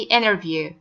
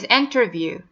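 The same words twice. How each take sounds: First: The T after the N is dropped entirely. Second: The T after the N is clearly pronounced. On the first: "Americans say" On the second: "This word is"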